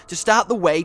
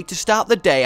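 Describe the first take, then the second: First: "way" said in place of "day"; word slip. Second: Said in the usual way. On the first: Real, not acted. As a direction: end on "way", with a W sound where D belongs. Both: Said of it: "I meant day".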